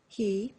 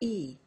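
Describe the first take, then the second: First: The h sound is pronounced at the start. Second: The h sound is dropped at the start.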